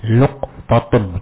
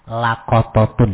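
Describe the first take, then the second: First: A u follows the l, no vowel follows the q. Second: An a follows both the l and the q. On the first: "al-qafu sakinatun" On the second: "kalau di fathah"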